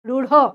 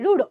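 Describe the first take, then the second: First: The final consonant has a strong breathy h. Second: The final consonant has no breathy h. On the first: "রূঢ় এইরকম উচ্চারণ হয়" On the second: "আমরা ডয় শূন্যর মতো করেই বলে দিই রূঢ়"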